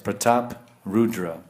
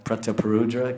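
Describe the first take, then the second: First: It is said as two words without a linking vowel. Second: It is said as one word with an extra vowel. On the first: "Here it's mentioned as two different words" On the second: "Usually we say Prataparudra"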